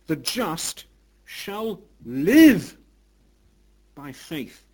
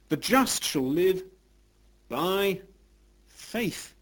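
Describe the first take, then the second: First: The stress is on "live". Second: The stress is on "faith".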